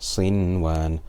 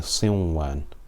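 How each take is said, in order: First: The n sound is pronounced clearly before w. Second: The n sound merges into the following w. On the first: The speaker calls it right. "We read it clearly" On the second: The speaker calls it wrong. "We do not say Sinwan, because in order to do Idgham"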